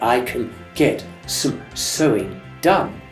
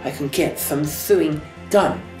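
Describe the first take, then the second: First: The S sounds are clear hisses. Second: The S sounds come out lisped, tongue between teeth. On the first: The speaker calls it right. "instead of saying" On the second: The speaker calls it wrong. "they say"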